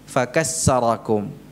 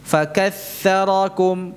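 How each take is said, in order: First: The middle consonant is an s sound. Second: The middle consonant is a soft th sound. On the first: The speaker calls it wrong. "bukan sin" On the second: The speaker calls it right. "Ini tha ini"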